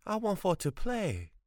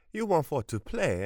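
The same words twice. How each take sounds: First: Put-on high, plaintive boy's voice, stressed want; pleading boy. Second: High, loud mock echo of the plea; mocking grandmother. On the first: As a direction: beg like a lonely child. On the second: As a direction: throw his words back at him. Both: A narrator's reading.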